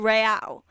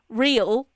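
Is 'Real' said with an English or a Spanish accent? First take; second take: Spanish; English. First: It is said with a Spanish-style pronunciation. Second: It is said with an English pronunciation. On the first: The speaker calls it right. "pronounce them with a slight Spanish accent" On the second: The speaker calls it wrong. "which is how I would pronounce that word in English, it sounds stupid"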